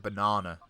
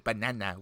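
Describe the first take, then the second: First: The word is said in a non-American accent. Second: The word is said in an American accent. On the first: This is how the speakers themselves say it. "We say banana" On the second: This is how Americans say it. "the Americans would say banana"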